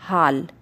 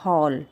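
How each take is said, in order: First: The vowel is a plain open 'aa' sound. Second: The vowel is between 'aa' and 'o'. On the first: The speaker calls it wrong. "इसे हम ना लगाए तो हम इस शब्द को कैसे पढ़ेंगे?" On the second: The speaker calls it right. "आगत ध्वनि का ये चिन्ह लगा देते हैं तो हम इसे पढ़ेंगे"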